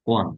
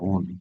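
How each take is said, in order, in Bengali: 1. শব্দটি 'one'-এর মতো শোনায়, w দিয়ে শুরু। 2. শব্দটি 'own'-এর মতো শোনায়, w ছাড়া। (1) "এটা হবে ওয়ান" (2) "নট ওন বলেন আপনারা হয়তো অনেকে"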